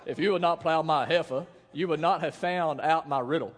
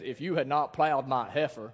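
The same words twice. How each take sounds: First: Put-on southern accent. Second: Said in the usual way. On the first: Preacher quoting Samson to the congregation, in a southern accent. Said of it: "it's like a southern accent". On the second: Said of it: "I really think it's like a southern accent".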